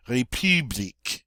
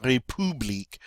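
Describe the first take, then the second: First: "république" with puckered "ee" in "pu"; French U. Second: "république" with "poo" in the middle; English-style U. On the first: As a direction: round the lips on the U of "république". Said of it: "long E sound in English through rounded lips". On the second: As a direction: say "république" as "ray-poo-bleek". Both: Shown as a demonstration.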